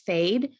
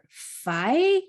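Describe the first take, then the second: First: It is said with a long a and final d. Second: It is said with a vowel and no final consonant. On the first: The speaker calls it wrong. "it looks like it says fade. It's not fade" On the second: The speaker calls it right. "or fi"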